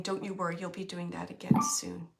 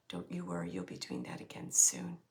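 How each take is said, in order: First: Said in the usual way. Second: Deep hushed whisper. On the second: Retold or imitated. Reassuring message repeated much lower.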